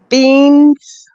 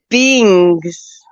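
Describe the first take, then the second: First: The word has a plain n sound. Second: The word has an added g sound. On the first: The speaker calls it right. "you know how you say beans" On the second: The speaker calls it wrong. "With like a G in it"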